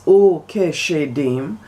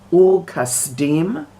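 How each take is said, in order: First: The second word is said with an 'sh' sound. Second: The second word is said with an 's' sound.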